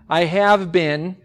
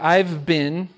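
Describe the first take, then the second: First: Every word is pronounced fully and separately. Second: The words are contracted into a shorter form.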